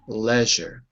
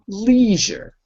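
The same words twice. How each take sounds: First: The word has a British English pronunciation. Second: The word has an American English pronunciation. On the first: "In British English" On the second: "In American English"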